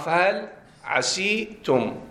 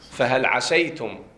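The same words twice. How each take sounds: First: The vowel after the s is 'i'. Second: The vowel after the s is 'a'. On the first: This is another accepted reading. "جاز في السين الكسر إتباعا للياء. وبه قرأ نافع" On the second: This is the common reading. "احنا القراءة اللي عندنا شنو"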